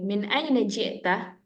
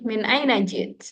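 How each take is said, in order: First: The last word ends with a full vowel. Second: The last word ends on a bare consonant. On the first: It is the easier form for beginners. "boleh dibaca lengkap" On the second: It sounds fluent like native speakers. "Kalau pengen terlihat fasih"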